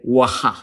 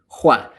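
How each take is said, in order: First: The H sound comes after the W. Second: The H sound comes before the W. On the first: The speaker calls it wrong. "Nobody ever actually said waha" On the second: The speaker calls it right. "the original spelling and pronunciation in English was H W"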